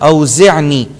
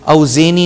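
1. صوت العين الحلقي منطوق بوضوح. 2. صوت العين الحلقي غير منطوق. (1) "عین کو انڈر لائن کریں گے" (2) "اوزعنی نہیں ہوگا"

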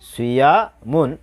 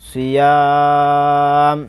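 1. শব্দটি একটি উচ্চারিত 'un' ধ্বনি দিয়ে শেষ হয়। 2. শব্দটি হঠাৎ একটি শুধু 'm' ধ্বনিতে শেষ হয়।

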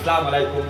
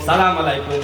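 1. সালামের শুরুর শব্দাংশটি বাদ পড়ে যায়। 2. সালামের শুরুর শব্দাংশটি বাদ পড়ে যায়।

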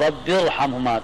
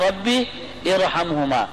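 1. آواز گر جاتی ہے اور الفاظ آپس میں ملا کر پڑھے جاتے ہیں۔ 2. را کی آواز سے پہلے ایک الگ آواز ادا کی جاتی ہے۔ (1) "تو وہ گر جاتا ہے" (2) "اصل میں کیا ہے"

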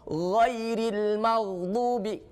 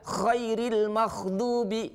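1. Kata pertama diawali dengan bunyi gh bersuara. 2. Kata pertama diawali dengan bunyi kh tak bersuara.

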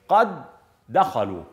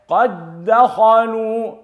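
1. يُنطق الصوتان d منفصلين. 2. يندمج الصوتان d في d واحدة مشددة.

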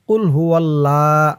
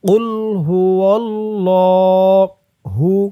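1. Allah শব্দের L হালকা ও পাতলা। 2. Allah শব্দের L ভারী ও মোটা। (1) "অনেকেই বলে কুল হুয়াল্লাহ, এভাবে বললে কিন্তু লামের উচ্চারণটা শুদ্ধ হয় না" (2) "ল বলতে হবে"

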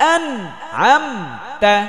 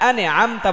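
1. n বন্ধ থাকে, এর পরে কোনো স্বরধ্বনি নেই। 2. n এর পরে একটি অতিরিক্ত স্বরধ্বনি যোগ করা হয়। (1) "সিরাতাল লাযিনা আন আম তা" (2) "এখানে আনে আম তা বলা যাবে না"

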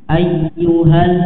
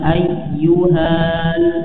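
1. Vokal sebelum huruf l pendek. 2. Vokal sebelum huruf l panjang. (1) "jangan sampai dibaca panjang tapi langsung melebur ke huruf selanjutnya"

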